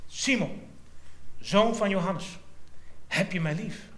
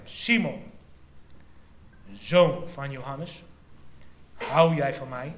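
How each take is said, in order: First: A raised, earnest call of the name, then the question; tender question. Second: Slow and louder, each word weighed; third, insistent asking. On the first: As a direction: ask it searchingly. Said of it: "sprak Jezus Simon Petrus aan". (zacht indringend gevraagd) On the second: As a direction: press the question home, slowly. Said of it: "voor de derde maal vroeg hij hem". (langzaam en nadrukkelijk gevraagd) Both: Acted.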